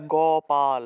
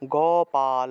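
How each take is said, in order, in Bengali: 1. শব্দটি শেষে স্বরধ্বনি দিয়ে শেষ হয়। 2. শব্দটি শেষে স্বরধ্বনি দিয়ে শেষ হয়।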